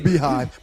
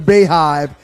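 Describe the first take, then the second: First: The first syllable sounds like "bee". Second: The first syllable sounds like "bay". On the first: The speaker calls it right. "it's the Beehive" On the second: The speaker calls it wrong. "it's not the Bayhive"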